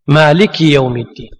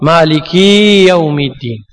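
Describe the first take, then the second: First: The final vowel of the first word is short. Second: The final vowel of the first word is lengthened. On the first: It names the single owner of the Day of Judgment. The speaker calls it right. "بس بدون إشباع" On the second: It suggests several owners of the Day of Judgment. The speaker calls it wrong. "لأنه أشبع الحركة، وهذا خطأ"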